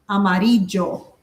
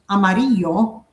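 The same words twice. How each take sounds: First: The double L sounds more like a J. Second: The double L sounds like a Y. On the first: "here they say more of like an amarillo, more like a J" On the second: "you say it like a Y"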